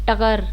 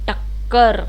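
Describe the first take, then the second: First: The middle k sound is short and single. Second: The middle k sound is held and doubled. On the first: The speaker calls it wrong. "टकर हो जाता है, नहीं" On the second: The speaker calls it right. "जब ज़्यादा जोर आ रहा था"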